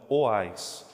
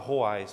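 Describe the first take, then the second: First: The name starts directly with a vowel sound. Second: The name starts with a harsh R-like sound. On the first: The speaker calls it right. "mas é oais com H" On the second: The speaker calls it wrong. "Tem gente que fala roais"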